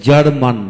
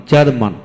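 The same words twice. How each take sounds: The two takes are said the same way.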